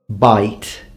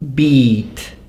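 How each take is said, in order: First: The vowel is pronounced as in the 1900s. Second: The vowel is pronounced as in the 1400s. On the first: "nineteen hundreds" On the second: "the way they would be pronounced in the fourteen hundreds"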